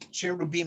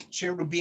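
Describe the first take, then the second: First: It is said with an English pronunciation. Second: The same.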